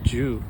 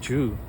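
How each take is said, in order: First: The word begins with a j sound. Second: The word begins with a j sound.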